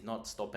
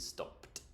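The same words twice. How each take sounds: First: "stopped" said with a wrong extra sound, not a clear t; wrong -ed ending. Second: "stopped" ending in a soft t sound, /stɑpt/. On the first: Teacher showing the wrong ending of stopped. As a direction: mispronounce "stopped" on purpose. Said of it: "it is not stopped". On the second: Teacher whispering the right ending of stopped. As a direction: end "stopped" with a light t. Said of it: "it is stopped". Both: Shown as a demonstration.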